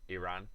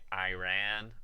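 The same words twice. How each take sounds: First: It is said with a non-American pronunciation. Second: It is said with an American pronunciation. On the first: "rather than Iran" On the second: "Americans because you know they say Iran"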